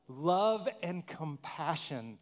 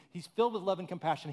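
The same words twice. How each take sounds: First: Love and compassion drawn out, word by word; slow emphatic. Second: Filled with love and compassion rattled off fast; quick restatement. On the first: Preacher savouring the line for the congregation, slow and emphatic. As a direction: lean on each word slowly. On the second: Preacher repeating the line to the congregation, brisk. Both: Shown as a demonstration. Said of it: "I love that line too".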